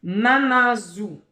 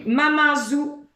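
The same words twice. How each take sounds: First: Mamanzou repeated slowly, loud, falling; teacher repeating. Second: Mamanzou higher and louder, rising; teacher quizzing; loud game word. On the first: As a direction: say mamanzou once more, slower. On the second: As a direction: present mamanzou to the class. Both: Shown as a demonstration. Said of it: "Si je dis mamanzou".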